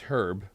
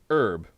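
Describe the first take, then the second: First: The word starts with an h sound. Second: The word starts without an h sound. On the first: It is a person's name. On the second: It names the plant used in cooking.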